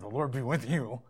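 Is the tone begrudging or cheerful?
begrudging. It is said begrudgingly and without enthusiasm.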